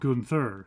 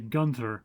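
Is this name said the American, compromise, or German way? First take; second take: compromise; American. First: The name is pronounced midway between both ways. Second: The name is pronounced the American way. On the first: "a compromise, and they generally call him Gunther" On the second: "Americans generally say Gunther"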